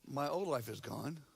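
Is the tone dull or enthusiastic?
dull. It is said flatly, without enthusiasm. The speaker calls it wrong.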